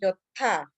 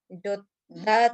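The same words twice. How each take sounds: First: The middle consonant is aspirated. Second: The middle consonant is plain and unaspirated. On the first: The speaker calls it right. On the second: The speaker calls it wrong.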